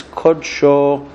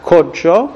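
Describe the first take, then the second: First: Kod-SHO, last syllable drawn out; stress on final syllable. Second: KOD-sho, first syllable punched; stress on first syllable. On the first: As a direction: say kodsho slowly, leaning on SHO. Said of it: "The stress is on that syllable". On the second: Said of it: "It's not kodsho". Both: Shown as a demonstration.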